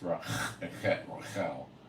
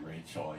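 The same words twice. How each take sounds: First: The name is said with a Hebrew pronunciation. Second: The name is said with an English pronunciation. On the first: "it's not Rahel, it's Rachel" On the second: "In English, you would say Rachel"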